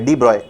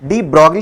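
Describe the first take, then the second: First: The surname is said as one syllable, broy. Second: The surname is said as two syllables, brog-lee. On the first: The speaker calls it right. "डी ब्रॉय होता है ऐसे करके" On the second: The speaker calls it wrong. "De ब्रॉगली नहीं होता"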